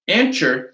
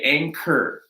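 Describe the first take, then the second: First: The middle consonant is not a hard K. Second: The middle consonant is a hard K. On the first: The speaker calls it wrong. "This is not anchor" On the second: The speaker calls it right. "the hard K"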